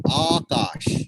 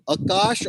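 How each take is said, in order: First: Akash with a long, open AA at the start; long open first A. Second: Akash with a short, unstressed uh at the start; short first A. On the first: Teacher models the word for a student, Akash with a long open AA. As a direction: draw out the first vowel, AA-kaash, with plenty of breath. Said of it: "The wind should come out of your mouth". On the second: Teacher asks student which way to say it, Akash with a short first vowel. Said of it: "is it Akash or is it Akash". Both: Shown as a demonstration.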